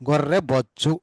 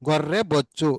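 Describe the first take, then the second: No difference in how they are said.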